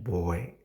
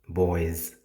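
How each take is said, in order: First: The final s sound is left off. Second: The word ends with a clear z sound. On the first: The speaker calls it wrong. "we miss the word S in the in the last" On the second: The speaker calls it right. "you need to say something like boys. Z"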